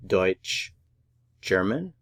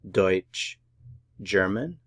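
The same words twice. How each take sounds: The two takes are said the same way.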